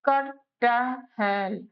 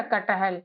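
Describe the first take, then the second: First: कटहल stretched out very slowly, क-ट-हल syllable by syllable; slow syllable demo. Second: Said in the usual way. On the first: Shown as a demonstration. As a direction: draw कटहल out slowly for a learner. (कटहल को बहुत धीरे, एक-एक अक्षर करके) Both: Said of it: "अब देखो कटहल".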